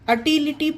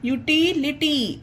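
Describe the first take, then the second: First: The word begins with an 'uh' sound. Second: The word begins with a 'yoo' sound. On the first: The speaker calls it wrong. "इसे अटिलिटी पढ़ना गलत होगा guys" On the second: The speaker calls it right. "इसे यूटिलिटी पढ़ेंगे"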